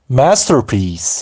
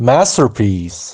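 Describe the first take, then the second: Both takes have the same delivery.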